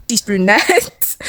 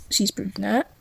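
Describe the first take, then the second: First: Very slow, stretched out; drawn-out emphatic. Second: Said in the usual way. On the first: Shown as a demonstration. Telling viewers about the brunette girl, slow drawn-out emphasis. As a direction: draw every word out for effect.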